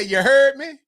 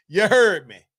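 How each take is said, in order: First: Drawled New Orleans "You heard me?" with a louder push on "heard"; New Orleans phrase. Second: Louder New Orleans "You heard me." with "heard" stressed and falling; New Orleans phrase. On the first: Host imitating a Louisiana catchphrase, in a New Orleans accent. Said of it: "when you hear somebody say". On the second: Host granting a pass for the phrase, in a New Orleans accent. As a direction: drop "heard" down at the end, New Orleans style. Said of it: "just on saying". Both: Retold or imitated.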